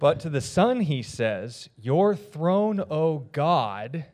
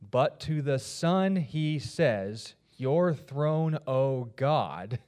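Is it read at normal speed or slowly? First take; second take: normal; slowly. First: It is read at normal speed. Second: It is read slowly and deliberately.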